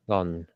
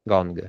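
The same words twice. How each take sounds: First: "gone" ending on the nasal, no hard g; without G. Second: "Gong" with a hard g released at the end; final G sounded. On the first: Teacher correcting herself after checking pronunciation, g left silent. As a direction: let "gone" stop on n, dropping any g release. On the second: Teacher modelling the instrument's name, final g sounded. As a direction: close "Gong" on an audible g after the n. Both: Shown as a demonstration. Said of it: "Okay, without G".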